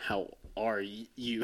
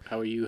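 First: It sounds sincere, with heavier emphasis. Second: It sounds like a quick, casual politeness.

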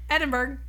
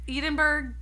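First: The first syllable sounds like Ed. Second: The first syllable does not sound like Ed. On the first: The speaker calls it right. "Edin. Like Edward" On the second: The speaker calls it wrong. "Did I say it again?"

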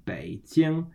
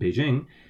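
First: It is said with Mandarin tones, third then first. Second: It is said with an English pronunciation, without tones. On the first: "in proper Chinese, it's pronounced Beijing" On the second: "in English, we'd probably pronounce it Beijing"

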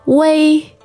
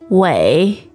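First: The pitch stays high and level. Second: The pitch dips low, then rises.

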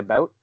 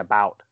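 First: It is said in a Canadian accent. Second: It is said in an American accent.

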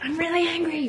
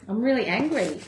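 First: It is said aggressively, in someone's face. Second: It is said calmly and plainly.

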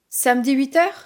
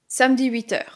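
First: The pitch rises at the end. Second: The pitch falls at the end. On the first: It is a question. "La voix monte à la fin comme c'est une question" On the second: It is a statement. "la voix descend, puisque c'est une phrase affirmative"

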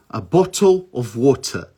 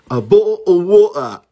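First: Both T sounds are pronounced as clear Ts. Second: Both T sounds are replaced by glottal stops. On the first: "no sotaque padrão britânico" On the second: "E aí fica a bo wa"

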